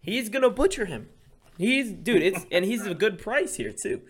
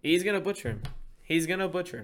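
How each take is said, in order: First: Much higher, louder hyped yell; fired up shout. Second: Higher pitched, hyped prediction; excited boast about the fight; fired up. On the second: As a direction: pump it up, sure of the knockout. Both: Real, not acted. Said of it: "Teddy got all fired up".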